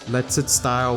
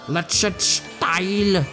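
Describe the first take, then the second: First: It is said plainly, without an exaggerated accent. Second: It is said in an exaggerated German accent.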